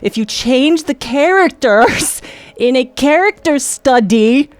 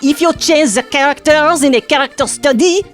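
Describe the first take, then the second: First: It is said in the speaker's plain accent. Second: It is said in a put-on French accent.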